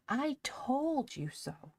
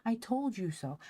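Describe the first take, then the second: First: High, slow drawn-out gloating; sing-song gloat. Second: Triumphant teasing. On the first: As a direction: stretch it out, teasing him. Polly repeats, more sing-song. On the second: Polly triumphant, spinning Ben. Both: Acted.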